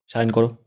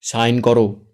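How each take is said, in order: First: Louder harsh order; scolding order; angry scolding. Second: Much louder sharp command; louder barked command; loud rebuke. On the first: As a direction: bark at her. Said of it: "রেগে ধমকে বলে". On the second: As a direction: bark the order. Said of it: "জোরে আরেকবার ধমকে বলে". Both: Acted.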